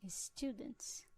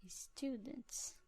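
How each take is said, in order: Both takes have the same delivery.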